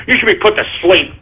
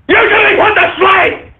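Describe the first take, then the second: First: Said in the usual way. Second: Yelling the line he just muttered; angry shout. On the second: Real, not acted. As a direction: bellow the verdict. Repeated as a yell.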